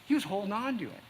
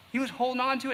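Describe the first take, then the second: First: Said in the usual way. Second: "on" pushed higher and louder in "holding on to it"; repeated with more weight. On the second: Shown as a demonstration. Preacher pressing the point home to the congregation, higher and louder. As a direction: lean hard on "on", higher and louder.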